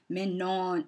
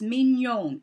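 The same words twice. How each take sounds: First: The name is given an anglicized pronunciation. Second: The name is given a French pronunciation. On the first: The speaker calls it wrong. "Why can no one pronounce her name?" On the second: The speaker calls it right. "No, it's mignon. It's a French word"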